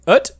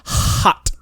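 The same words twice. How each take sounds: First: Put-on "Ut" as French-accented hot, h missing; dropped h. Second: "Hot" with a long, breathed h at the front; exaggerated h. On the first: Pharmacist repeats the word to tourist, "Ut" without its h. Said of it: "he's, like, so annoyed". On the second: Coworker correcting pharmacist, "Hot" with heavily breathed h. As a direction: huff out the h of "Hot", loudly. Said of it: "you're saying it wrong".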